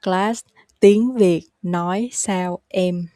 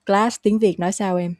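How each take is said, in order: First: Slow, word by word; slow repeat-after-me pace. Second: Words run together at everyday speed; natural pace. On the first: Teacher has learners repeat the question, slowly. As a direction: leave small gaps between the words. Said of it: "You can repeat after me". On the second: Teacher demonstrates the question for learners, at natural pace. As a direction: ask it fluently, without gaps. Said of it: "now the natural, uh, pace". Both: Shown as a demonstration.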